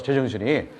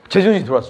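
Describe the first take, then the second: First: Said in the usual way. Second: 제정신이 hit loud and falling; emphatic. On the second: Shown as a demonstration. Preacher driving home his sudden clarity, emphatic.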